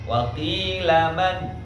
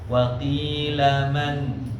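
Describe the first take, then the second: First: The final n is cut off abruptly. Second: The final n is held briefly. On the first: The speaker calls it wrong. "sehingga nunnya kurang jelas" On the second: The speaker calls it right. "Harusnya dia dialirkan sedikit"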